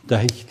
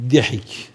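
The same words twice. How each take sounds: First: "Dahik" with an a in the first syllable; corrected first vowel. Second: "dihik" with an i in the first syllable; variant first vowel. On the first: Preacher settling on the Arabic term, pronounced "Dahik". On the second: Preacher trying the Arabic term for laughing, pronounced "dihik". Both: Shown as a demonstration. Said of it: "Dahik diyelim".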